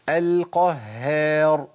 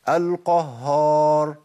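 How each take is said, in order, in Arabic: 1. صوت الهاء خفيف، مع انفراج الشفتين. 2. صوت الهاء ثقيل، مع استدارة الشفتين. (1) "محتاج هيئه شفتين" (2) "بيثبت هيئه واحده وهي التفخيم"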